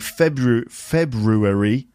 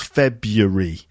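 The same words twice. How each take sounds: First: The word is said with four syllables. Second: The word is said with three syllables. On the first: "you might hear some people saying February" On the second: "they actually make it three syllables"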